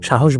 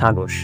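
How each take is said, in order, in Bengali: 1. মাঝের ব্যঞ্জনটি হ-ধ্বনি। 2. মাঝের ব্যঞ্জনটি গ-ধ্বনি। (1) "সাহস বলতে পারে না" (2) "হ উচ্চারণে তার সমস্যা হয়, সে বলে সাগস"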